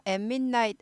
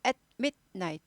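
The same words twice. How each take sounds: First: At midnight melted into em-min-night; wrong run-on at midnight. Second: At midnight cut as at, mit, night; three staccato pieces in at midnight; both breaks made. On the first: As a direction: hum through the joins of at midnight. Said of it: "at midnight 아니고". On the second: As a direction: stop after at and inside midnight. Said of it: "둘 다 끊어야 돼요". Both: Shown as a demonstration.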